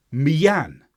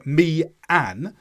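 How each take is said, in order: First: "me an" joined as me-yan; intrusive y. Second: "me an" with a gap between the words; separate vowels. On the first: Teacher shows the linking sound, "me an" as me-yan. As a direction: glide from "me" into "an" through a y. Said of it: "we use a y to get between them". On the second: Teacher shows speech without a linking sound, "me an" apart. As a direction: stop between "me" and "an". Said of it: "Instead of saying". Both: Shown as a demonstration.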